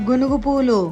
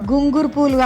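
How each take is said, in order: First: The name is said with plain 'n' and 'gu'. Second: The name is said with an extra 'ng' and 'ru'. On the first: The speaker calls it right. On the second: The speaker calls it wrong. "గుంగురు పూలు కాదు"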